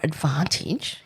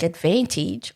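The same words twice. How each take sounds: First: The word is said in a careful, fussier way. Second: The word is said in a plain, casual way.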